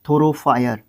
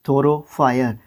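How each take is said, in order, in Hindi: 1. आख़िरी अक्षर 'fire' जैसा सुनाई देता है। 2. आख़िरी अक्षर 'fire' जैसा सुनाई देता है।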